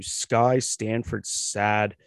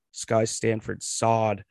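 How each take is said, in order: First: Sad said with a short a, as in sad; Sky Stanford Sad, with the last name said as sad; name mispronounced. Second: Sod said with an open o, as in sod; Sky Stanford Sod, slowly, with the last name said as sod; corrected pronunciation. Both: Real, not acted. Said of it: "or sorry".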